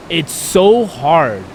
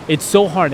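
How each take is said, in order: First: "so hard" stretched out very slow, each word weighed; slow right down and lean on "so hard"; dragged-out emphasis. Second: Said in the usual way. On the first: Real, not acted. Man opening up on the podcast, stretching "so hard" out slowly.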